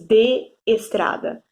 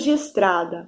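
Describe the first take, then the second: First: The two vowels stay in separate syllables. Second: The two vowels merge into one syllable. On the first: The speaker calls it wrong. "Não aparece esse de estrada" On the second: The speaker calls it right. "na hora de falar a gente fala assim, acaba juntando"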